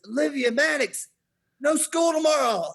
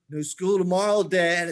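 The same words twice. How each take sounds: First: High, loud triumphant holler; imitated calling out. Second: Put-on louder, raised voice of a pleased child; imitated smiling glee. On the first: Winning boy calls to his siblings upstairs, hollering. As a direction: holler the good news through the house. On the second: Son tells dad he won the bet, gleeful. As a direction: announce the win to dad with a smile. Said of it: "and then he smiles".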